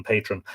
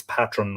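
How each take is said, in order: First: Second patron as "PAY-trun"; long A. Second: First patron as "PAT-run"; short A. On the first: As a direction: say patron with the A of "day". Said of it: "rather than patron". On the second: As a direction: say patron with the A of "cat". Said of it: "I presume it's patron rather than patron". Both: Shown as a demonstration.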